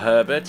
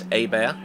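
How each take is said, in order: First: The name is said the plain English way. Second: The name is said the Cajun French way.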